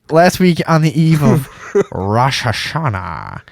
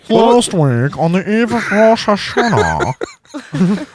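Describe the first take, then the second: First: It is read in the speaker's usual accent. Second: It is read in an imitated British reporter accent.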